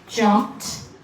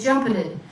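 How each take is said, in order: First: The ending is a single T sound. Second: The ending adds an extra syllable. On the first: The speaker calls it right. "if it makes a T sound and it has an E D, it's okay" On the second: The speaker calls it wrong. "Don't change it to jumpeted, okay? Because it's not a real word"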